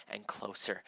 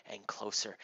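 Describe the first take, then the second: No difference in how they are said.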